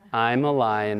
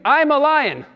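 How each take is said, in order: First: It is said timidly and weakly. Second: It is said boldly and with force. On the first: The speakers do not really believe it. The speaker calls it wrong. "everybody in the congregation said sheepishly" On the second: The speaker truly claims their strength. The speaker calls it right. "come on, say it with me"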